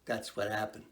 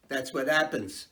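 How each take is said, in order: First: Soft aside. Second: Said in the usual way. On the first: Shown as a demonstration. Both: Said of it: "yeah, see?".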